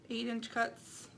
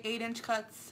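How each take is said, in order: First: "Eight-inch cuts" slowed right down, each word weighted; slow emphasis. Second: Said in the usual way. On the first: Shown as a demonstration. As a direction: lean slowly on "Eight-inch cuts" so it sticks.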